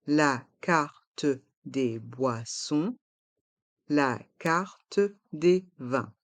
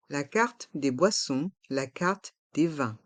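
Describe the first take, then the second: First: "la carte des boissons, la carte des vins" syllable by syllable; slow model pronunciation. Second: Said in the usual way. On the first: Shown as a demonstration. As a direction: slowly separate every syllable, sounding the e of "carte". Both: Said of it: "Prononçons".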